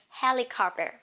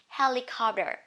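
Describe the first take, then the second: Both takes have the same delivery.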